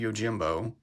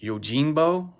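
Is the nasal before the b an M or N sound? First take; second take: M; N. First: It has an M sound before the b. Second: It has an N sound before the b.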